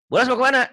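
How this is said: The question is asked in a curt, irritated tone. The speaker is stressed and annoyed. "orang lagi pusing gitu"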